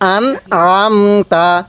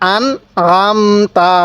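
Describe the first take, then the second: No difference in how they are said.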